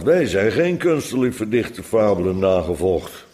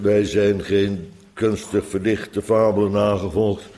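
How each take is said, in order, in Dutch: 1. Het wordt expressief gelezen, met duidelijke nadruk. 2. Het wordt vlak gelezen, zonder enige nadruk. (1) "Het had natuurlijk moeten zijn" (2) "Ik zeg het zo toonloos mogelijk, zonder accent"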